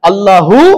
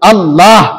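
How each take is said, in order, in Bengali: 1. শব্দটি একটা হ্রস্ব উ স্বরধ্বনি দিয়ে শেষ হয়। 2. শব্দটি একটা থামা হ ধ্বনি দিয়ে শেষ হয়। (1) "প্রথম যে আল্লাহ শব্দের উচ্চারণ করতেছেন হায়ের উপর পেশ দিলেন, থামলেন না" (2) "দ্বিতীয় আল্লাহর হায়ের মধ্যে সাকিন"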